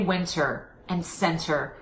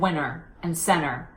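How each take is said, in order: First: The T sounds after N are clearly pronounced. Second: The T sounds after N are dropped. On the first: The speaker calls it right. "more clear and more precise to say winter and center" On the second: The speaker calls it wrong. "instead of winter and center"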